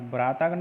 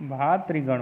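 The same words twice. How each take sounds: First: भ्रातागण as "bhraa-taa-gan"; long a before gan in भ्रातागण; wrong form. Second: भातृगण as "bhaa-tri-gan"; correct form. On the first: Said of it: "नहीं". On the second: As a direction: put tri in the middle of भातृगण. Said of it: "होता है". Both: Shown as a demonstration.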